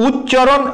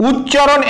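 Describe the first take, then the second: Both takes have the same delivery.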